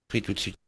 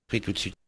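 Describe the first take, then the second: The two takes are said the same way.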